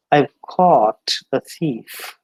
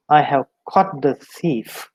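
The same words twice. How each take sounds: First: "caught" slow with a long drawn aw; correct long vowel. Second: "caught" said with a short clipped o; "caught" short, like cot; wrong vowel in caught. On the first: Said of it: "then that is all right". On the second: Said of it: "the pronunciation is misunderstood". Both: Shown as a demonstration.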